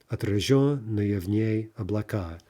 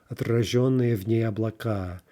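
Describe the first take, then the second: The two takes are said the same way.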